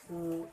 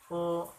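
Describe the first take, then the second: First: The vowel is a close rounded u sound. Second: The vowel is a more open o sound. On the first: The speaker calls it right. "u manyunkan bibirnya" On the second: The speaker calls it wrong. "tidak o"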